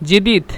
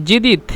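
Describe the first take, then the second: No difference in how they are said.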